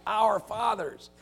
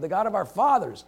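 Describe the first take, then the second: First: Our fathers slowed, with our leaned on; stress on our. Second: Said in the usual way. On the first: Shown as a demonstration. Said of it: "He's tying that deliberately".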